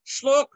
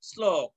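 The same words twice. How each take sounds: First: শ্লোক begun with "shl", as shlok; hushing sh at the start of শ্লোক; mistaken sh sound. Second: শ্লোক corrected to "slok"; lower-pitched শ্লোক with clean English s; dental s sound. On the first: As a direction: say শ্লোক with sh instead of s. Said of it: "নয়". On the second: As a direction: say শ্লোক with sl-, never shl-. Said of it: "শ্লোক নয়". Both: Shown as a demonstration.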